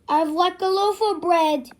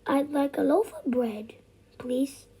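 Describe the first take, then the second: First: It is said in a loud, booming voice. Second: It is said in a soft, quiet voice.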